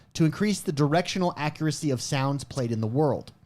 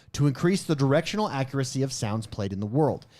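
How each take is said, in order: The two takes are said the same way.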